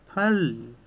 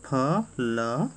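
First: फल joined into one drawn-out syllable; blended whole word. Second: फल split into two slow sounds, फ, then ल; sounded letter by letter. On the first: Teacher leading pupils in reading, फल blended as one word. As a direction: say फल whole, stretching it out. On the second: Teacher leading pupils in reading, फल sounded letter by letter. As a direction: say फल as separate letters, फ and ल. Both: Shown as a demonstration. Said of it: "वाक्य मेरे साथ पढ़ना शुरू कर दो".

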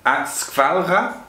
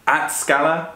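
First: "skvalra" drawn out slowly, higher; Swedish word skvalra. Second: "skala" said without a V sound; Swedish word skala. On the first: Comparing two similar Swedish words, "skvalra" slowly with V and R. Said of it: "something like that". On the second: Comparing two similar Swedish words, "skala" without the V. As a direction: pronounce "skala" carefully with a plain L. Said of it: "those are very similar". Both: Shown as a demonstration.

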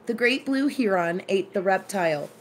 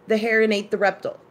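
First: "heron" as HEE-ron, "reptile" as REP-tile; full vowels: "heron" HEE-ron, "reptile" REP-TILE; own pronunciations. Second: Quick, "heron" as HAIR-un, "reptile" as REP-tull; friend's pronunciations. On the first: Shown as a demonstration. Declaring their own way, "heron" as HEE-ron. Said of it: "that is how I pronounce it". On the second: Retold or imitated. Putting it in the friend's words, "reptile" as REP-tull. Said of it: "you would say".

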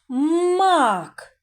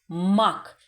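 First: "Мак" drawn out, vowel held long and higher; stretched-out word. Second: Said in the usual way. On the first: Shown as a demonstration. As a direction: stretch "Мак" so the middle А stands out. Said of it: "Другий звук який?". (протяжно "Мак", з виділеним звуком А) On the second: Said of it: "Наступне слово мак".

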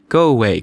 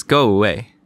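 First: A louder, falling go away; Mary crying out at the boy to leave; angry cry. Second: Angry cry. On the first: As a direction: push him off with a sharp cry. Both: Acted. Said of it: "cried Mary".

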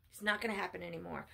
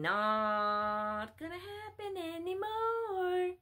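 First: Said in the usual way. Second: Every word stretched long on a high held pitch; slow, high, almost chanted "Not gonna happen anymore"; drawn-out refusal. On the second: Real, not acted. Preacher refusing followers' wishes, exaggerated drawn-out refusal.

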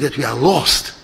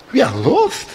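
First: Said in the usual way. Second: Questioning, pitched up in disbelief; incredulous echo. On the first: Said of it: "Der Pilot hat gesagt". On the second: Acted. Passenger repeating the pilot's announcement, incredulous.

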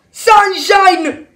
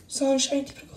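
First: Loud, raised-pitch call; urgent shout. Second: Hushed, gentle address; soft plea. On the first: Nick calls Sunshine away from her daughter, urgent shout. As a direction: yell the name to get through. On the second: Nick turns to injured Sunshine, soft and pleading. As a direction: say the name quietly, close by. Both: Acted.

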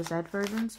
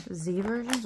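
First: Z said "zed", rhyming with bed. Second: Z said "zee", rhyming with see. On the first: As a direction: say the letter Z the British way, "zed". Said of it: "say it both ways". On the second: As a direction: say the letter Z the American way, "zee". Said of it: "however you say it". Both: Shown as a demonstration.

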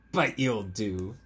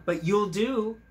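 First: Slow, gentle and fond; tender frog line. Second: Higher and louder, delighted retelling; bright retold quote. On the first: Acted. Frog tells dog he'll do, slow and tender. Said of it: "And he said". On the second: Retelling the frog's words to the listener, higher and louder. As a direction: pop it up with delight. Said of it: "He told City Dog".

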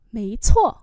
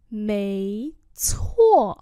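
First: Said in the usual way. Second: Two long, separate syllables; slow demonstration. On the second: Shown as a demonstration. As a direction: model it slowly. Teacher repeats phrase slowly.

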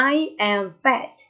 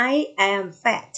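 First: Slow, word-by-word teacher reading; slow model reading. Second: Slow, even second reading; slow repeat. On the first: Teacher reading slowly for pupils to echo. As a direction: read it slowly for the class to repeat. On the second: Teacher repeating slowly so pupils follow. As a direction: say it slowly again for the class. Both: Shown as a demonstration. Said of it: "Say after me".

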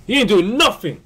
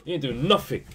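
First: Loud repeat. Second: Said in the usual way. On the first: Real, not acted. Repeated complaint, second louder.

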